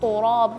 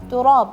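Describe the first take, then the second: First: The first consonant sounds heavy and thick. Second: The first consonant sounds light and thin. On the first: The speaker calls it wrong. "jangan turab" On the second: The speaker calls it right. "kan dia tak tipis ya"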